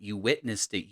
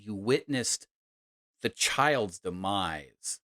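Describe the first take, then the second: First: Said in the usual way. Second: Witnessed weighted, then slow demise; stress on witnessed. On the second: Shown as a demonstration. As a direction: lean hard on witnessed.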